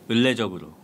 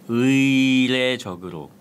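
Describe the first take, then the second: First: The first syllable is pronounced as 'eul'. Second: The first syllable is pronounced as 'ui'.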